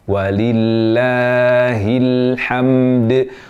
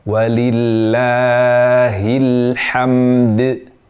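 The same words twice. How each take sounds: Both takes have the same delivery.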